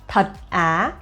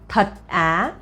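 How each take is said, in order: First: It is said flatly, as if read aloud. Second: The same.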